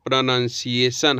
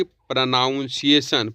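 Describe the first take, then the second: First: प्रोनंसिएशन said pro-nun-see-ay-shun, no ow; प्रोनंसिएशन the correct way; correct pronunciation. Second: प्रोनाउंसिएशन said pro-noun-see-ay-shun with ow; the common mistake, noun in प्रोनाउंसिएशन; प्रोनाउंसिएशन the wrong way; wrong pronunciation. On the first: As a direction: say प्रोनंसिएशन with nun, not noun. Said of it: "प्रोनाउंसिएशन का सही उच्चारण". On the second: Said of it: "न कि". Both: Shown as a demonstration.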